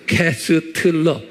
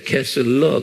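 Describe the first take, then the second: First: The name is said with a t sound. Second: The name is said without a t sound. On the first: "여기에 T가 숨겨져 있어요" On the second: "T를 내가 말 안 해줬어요"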